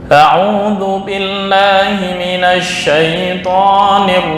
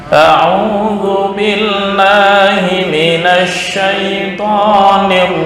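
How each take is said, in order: No difference in how they are said.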